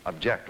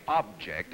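First: "object" said as the verb, stressed on JECT; "object" with a weak first syllable and stress on JECT. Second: "Object" said as the noun, stressed on OB; "Object" with the first syllable OB punched. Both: Shown as a demonstration. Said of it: "you can object like that".

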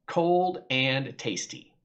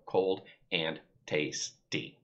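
First: Said in the usual way. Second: Cold and tasty, slow, one syllable at a time; counting syllables. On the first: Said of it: "So I said". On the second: Shown as a demonstration. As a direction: tap out each syllable of Cold and tasty on your fingers. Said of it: "count 'em on your fingers and go".

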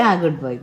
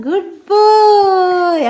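First: Said in the usual way. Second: Drawn-out praise. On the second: Real, not acted. Praising toddler after animal sound.

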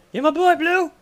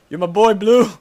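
First: Much higher, laughing squeal; squeaky repeat. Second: Put-on laughing, loud and higher "You're my boy, Blue"; laughing movie-line shout; laughing quote. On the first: Pretend. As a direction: squeal it up high through laughter. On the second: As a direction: bellow it through a laugh.

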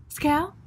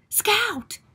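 First: Tentative rising "Scout?"; gentle, questioning summons; questioning call. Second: High, falling cry of "Scout!"; acted urgent summons; alarmed call. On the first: Acted. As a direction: call the name as a question, lifting at the end. Jem tentatively seeks his sister's attention.

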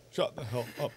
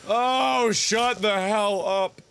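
First: Very soft, low under-the-breath aside; fed up, barely voiced; hushed dismissal. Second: Slow, drawn-out SHUT THE HELL UP; long exasperated groan of words; fed-up dismissal. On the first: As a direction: drop right down to a near whisper. Same words repeated under the breath. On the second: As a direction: stretch out every word in exasperation. Fed up, first take, drawn out. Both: Real, not acted.

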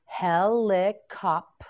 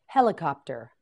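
First: Helicopter said slowly, syllable by syllable; slow syllable-stretched word. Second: Said in the usual way. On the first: Shown as a demonstration. Teacher modelling Helicopter for a class, slow and stretched. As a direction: stretch Helicopter out for learners to copy. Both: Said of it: "teacher models new word".

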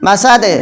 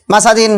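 First: মাসাদে ending on a bounced d; teacher's pausal মাসাদে with qalqalah; qalqalah on stop. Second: Said in the usual way. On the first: Shown as a demonstration. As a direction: stop on মাসাদে, releasing the d with a tiny echo. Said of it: "মাসাদিন থেকে কি হবে এখন". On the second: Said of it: "তা দাল দুইয়ের দিন".

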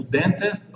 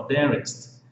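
First: "dentist" with both Ts pronounced; T fully sounded. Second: "dentist" with a quick R-like tap for the middle T. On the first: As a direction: say "dentist" with a clear T after the N. ("dentist" com o T bem pronunciado) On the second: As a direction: say "dentist" like "derrist", tapping the middle T. ("dentist" com o T soando como R) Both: Shown as a demonstration. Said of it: "vamos seguir aqui na fonética".

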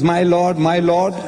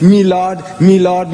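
First: Said in the usual way. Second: "Me lord" with a short "me" for "my", louder; courtroom "Me lord". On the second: Shown as a demonstration. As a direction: address the judge as "Me lord", not "my".

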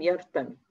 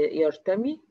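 First: يرتمي cut to a short final i, falling; shortened final vowel. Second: يرتمي with a long final ee, rising; full final vowel. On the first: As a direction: clip the last vowel of يرتمي to a brief kasra. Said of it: "وخليناه مجزوم". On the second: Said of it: "حذفنا حرف العلة". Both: Shown as a demonstration.

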